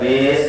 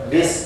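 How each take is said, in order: First: The syllable is drawn out too long. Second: The syllable is clipped too short. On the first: "Bukan bis kepanjangan" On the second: "bis kecepatan"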